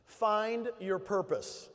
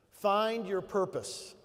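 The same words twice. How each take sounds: First: Very slow, each word weighted; drawn-out Find your purpose; slow emphatic. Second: Very slow, Find leaned on; drawn-out Find your purpose; slow emphatic repeat. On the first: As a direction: drive the point home slowly. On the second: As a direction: repeat it slower so it sinks in. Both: Real, not acted. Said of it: "You might wanna take some notes".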